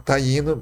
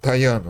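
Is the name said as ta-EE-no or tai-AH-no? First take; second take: ta-EE-no; tai-AH-no. First: The name is said as ta-EE-no. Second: The name is said as tai-AH-no. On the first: This is the name used in Central America. "o nome deles era taíno" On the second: This is the name used in the speaker's home region. "o I tem som de ai, e aí virou taiano lá na minha região"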